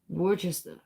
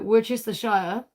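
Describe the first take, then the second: First: The word is clipped short, in a lazy way. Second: The word is said in full, every syllable. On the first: "say it like a fucking bugging ass Kiwi" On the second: "You could say Worcestershire"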